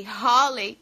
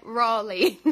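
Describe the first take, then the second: First: "Raleigh" said as "HO-lei", with an H; mispronounced Raleigh. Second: "Raleigh" said as "RAW-lee", English R; English-style RAW-lee for "Raleigh"; corrected pronunciation. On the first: Retold or imitated. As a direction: say "Raleigh" with a breathed H start. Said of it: "que eu falei Raleigh". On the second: Shown as a demonstration. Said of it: "e é Raleigh".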